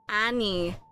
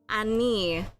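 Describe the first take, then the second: The two takes are said the same way.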